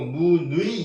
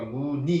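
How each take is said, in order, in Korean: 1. 둘째 음절은 'nu-i'처럼 들립니다. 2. 둘째 음절은 평범한 'ni'처럼 들립니다. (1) "이렇게 발음하지 않는 겁니다" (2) "이때는 그러니까"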